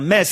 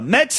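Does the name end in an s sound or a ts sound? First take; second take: s; ts. First: The name ends with a plain s sound. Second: The name ends with a ts sound. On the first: The speaker calls it right. "on dit bien Metz" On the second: The speaker calls it wrong. "et non pas Metz"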